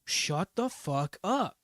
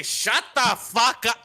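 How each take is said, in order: First: Slow, drawn-out put-on command; firm command. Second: High hammed-up tough-guy bark; mock tough guy. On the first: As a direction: stretch it out slowly, commanding. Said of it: "you do have to be like". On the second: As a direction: bark it like a cartoon brute. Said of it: "kick in the door and say".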